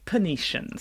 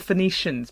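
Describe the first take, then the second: First: The word begins with a p sound. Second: The word begins with an f sound.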